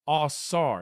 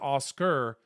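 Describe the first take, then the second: First: The middle consonant is an s sound. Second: The middle consonant is a k sound. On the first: It names the ancient god. "instead of a k sound, you have a s sound" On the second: It names the statue. "instead of Oscar"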